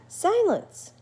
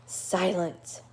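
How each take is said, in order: First: A much higher, louder chirpy echo; the bat parrots it back brightly. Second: Level, firm shush in the reader's own voice; Stumpy shushing. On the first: Bat cheerfully echoes the word. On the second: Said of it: "yelled Stumpy, irritable". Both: Acted.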